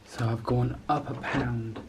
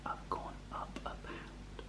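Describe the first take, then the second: First: Said in the usual way. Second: Hushed whisper; soft whispered disappointment. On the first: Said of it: "repeats it in normal voice". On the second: Real, not acted. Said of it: "I'm gonna do it quietly".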